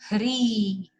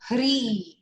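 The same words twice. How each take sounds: First: The vowel is drawn out long. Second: The vowel is short. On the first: "Now make it elongated at the E" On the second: "It's short one"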